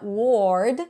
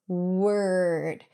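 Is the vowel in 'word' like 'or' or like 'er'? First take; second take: or; er. First: The vowel sounds like an 'or' sound. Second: The vowel sounds like an 'er' sound. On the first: The speaker calls it wrong. "it's not ward" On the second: The speaker calls it right. "it's word"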